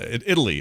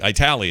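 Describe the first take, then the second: First: The word is pronounced in the ordinary way. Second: The word is pronounced in an imitated, unusual way.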